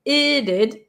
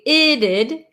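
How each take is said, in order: First: The T is a quick flap. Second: The T is a quick flap.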